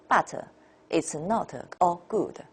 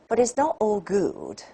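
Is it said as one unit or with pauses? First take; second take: with pauses; one unit. First: It is broken up by pauses. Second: It is said as one unbroken unit.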